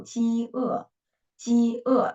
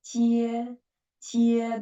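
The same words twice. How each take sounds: First: "ji e" split into "ji" and "e"; two syllables. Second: "jie" glided as one unbroken syllable. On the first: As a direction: give "ji" and "e" a beat each. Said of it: "if there are two syllables". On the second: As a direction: say "jie" in a single level beat. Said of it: "that is one syllable". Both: Shown as a demonstration.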